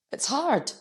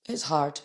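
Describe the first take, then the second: First: Emotional. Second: Said in the usual way. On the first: Real, not acted. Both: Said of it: "emotional today".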